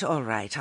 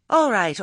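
First: Said in the usual way. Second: Impatient. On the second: Acted. Nanny cuts in impatiently.

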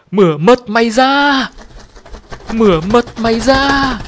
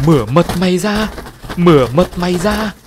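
First: Much higher, louder screech, slowing at the end; shrill screeching bird. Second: Eerie, higher and louder bird-like chant; strange bird voice. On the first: The bird stares at the narrator and screeches, shrill and menacing. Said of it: "rít lên re ré". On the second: The bird suddenly speaks to the frightened family, eerie and strange. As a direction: let an uncanny voice come out of the bird. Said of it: "lạ hoắc nhưng rất rõ ràng". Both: A narrator's reading.

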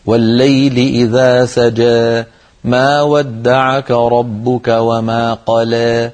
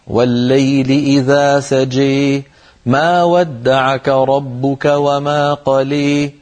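First: Slow recitation, "سجى" and "قلى" ending in long open eh; drawn-out endings tilted lightly toward ī in "سجى" and "قلى"; slight imāla recitation. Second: Slow chanted verse, "سجى" and "قلى" ending in closed ē; long endings pushed toward ī in "سجى" and "قلى"; fuller imāla. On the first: Teacher reciting verse, "سجى" and "قلى" with light imāla. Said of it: "فيها إمالة قليلة". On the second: Teacher reciting alternative, "سجى" and "قلى" with fuller imāla. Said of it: "ولو قال". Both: Shown as a demonstration.

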